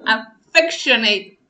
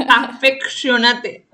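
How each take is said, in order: First: "Affectionate" said slowly with final "-eit"; loud, drawn-out "Affectionate" ending in "-neit"; English-style ending. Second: "Affectionate" read slowly as written, ending "-a-te"; loud, drawn-out "Affectionate" with every written vowel pronounced; spelling pronunciation. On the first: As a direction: end "Affectionate" on an English "-neyt", silent final e. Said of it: "Con doble F". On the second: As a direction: sound out "Affectionate" in Spanish letters, final "-nate" in two syllables. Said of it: "con shonate". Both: Shown as a demonstration.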